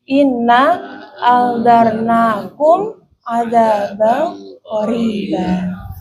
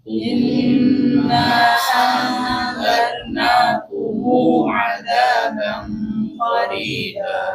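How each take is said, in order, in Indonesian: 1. Vokal pendek, dan mim akhir dibaca tertutup. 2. Vokal pendek, dan mim akhir dibaca tersambung. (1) "qasar sukun" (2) "qasar silah"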